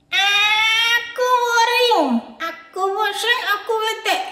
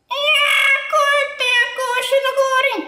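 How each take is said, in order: First: Put-on high, drawn-out singsong whine of a sulky child; the bored boy Adit whines from off-screen about being stuck home; whiny bored kid. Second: Put-on high, loud, insistent child's complaint; the boy Adit answers the teacher, louder and more fed up; louder sulky whine. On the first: Bored child puppet whining. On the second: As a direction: insist loudly like a fed-up kid. Puppet repeats complaint louder.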